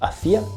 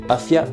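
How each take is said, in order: First: The stress is on the second syllable. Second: The stress is on the first syllable. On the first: It means 'I was doing'. "je faisais" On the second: It means 'towards'.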